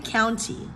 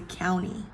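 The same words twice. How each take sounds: First: The T sound after the N is pronounced. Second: The T sound after the N is silent. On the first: "You can say county" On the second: "native speakers not say county. They'll say county"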